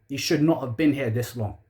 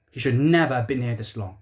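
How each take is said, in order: First: "not" pressed firmly, falling; stress on not. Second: "never" hit harder, falling; stress on never. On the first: Fan condemning the manager, stressing "not". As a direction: lean on "not" in disgust. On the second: Fan doubling down on the manager, stressing "never". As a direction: punch the word "never" as a verdict. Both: Real, not acted. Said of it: "repeated with changed stress".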